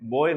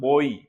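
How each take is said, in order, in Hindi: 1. शब्द साफ़ 'oi' स्वर पर खत्म नहीं होता है। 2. शब्द साफ़ 'oi' स्वर पर खत्म होता है। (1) "बोय नहीं होता है" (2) "ये होता है बोई"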